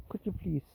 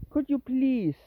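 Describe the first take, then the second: First: Softer, resigned request; quiet plea. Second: Higher, drawn-out plea with a falling end; insistent plea. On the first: Owner asking the dawdling cat, quiet plea. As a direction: ask politely, under your voice. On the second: Owner urging the dawdling cat, insistent high plea. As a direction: plead again, more pointedly. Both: Real, not acted.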